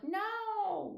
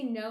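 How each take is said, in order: First: High, stretched Australian "no"; Australian accent. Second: Said in the usual way. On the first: Shown as a demonstration. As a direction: demonstrate an Australian accent with one long, high vowel. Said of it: "Like that". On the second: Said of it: "they say no, like".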